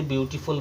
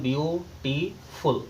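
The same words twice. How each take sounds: First: Said in the usual way. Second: "beautiful" slowly broken into three separate syllables. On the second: Shown as a demonstration. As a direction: say "beautiful" in three parts, pausing between each. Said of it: "तीन syllable हैं". ("Beautiful" को तीन हिस्सों में रुक-रुककर बोलें)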